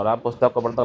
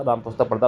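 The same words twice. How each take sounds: First: Teacher marking को as wrong; wrong version stressed. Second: Said in the usual way. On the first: Shown as a demonstration. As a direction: stress on को in Ram पुस्तक को पढ़ता, said as the wrong form. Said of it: "गलत हो जाएगा". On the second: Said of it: "सही हो जाएगा".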